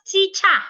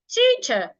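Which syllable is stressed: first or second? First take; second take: second; first. First: The stress is on the second syllable. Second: The stress is on the first syllable. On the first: The speaker calls it wrong. "not teacher" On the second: The speaker calls it right. "stress the first part"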